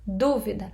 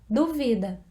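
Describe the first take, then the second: First: The stress is on the first syllable. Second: The stress is on the second syllable. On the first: It names a thing, a doubt. "marcando a primeira sílaba" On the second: It is the action of doubting. "A segunda sílaba"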